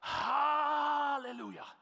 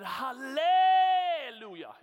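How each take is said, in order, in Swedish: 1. Betoningen ligger på första stavelsen. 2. Betoningen ligger på en senare stavelse.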